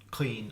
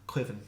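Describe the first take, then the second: First: The word is said with no V sound. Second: The word is said with a V sound. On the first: This is the southern regional form. "better in Munster again because the M H isn't actually pronounced" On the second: This is the western and northern regional form. "in um, Connacht and above it's cliven, or I think that it's like a V sound"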